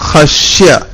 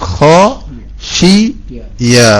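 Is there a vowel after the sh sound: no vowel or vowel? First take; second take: no vowel; vowel. First: The sh sound has no vowel after it. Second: The sh sound is followed by an i vowel. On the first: The speaker calls it wrong. "ഖശ്യ റഹ്മാന എന്നല്ല" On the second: The speaker calls it right. "ഷീന് സുക്കൂനാക്കരുത്"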